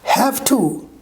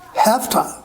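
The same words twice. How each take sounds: First: Both words are said fully and separately. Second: The words are blended into one reduced word.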